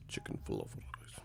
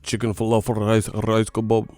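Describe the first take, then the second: First: Breathy whispered chant of the food names. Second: Chanted menu words as a made-up tune; sung, mock Middle Eastern song. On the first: Pretend. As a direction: whisper the made-up song. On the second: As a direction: sing the food names like a mock Arabic pop hook. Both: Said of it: "a Middle Eastern song next".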